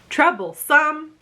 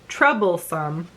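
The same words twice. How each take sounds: First: The stress falls on a later syllable. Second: The stress falls on the first syllable.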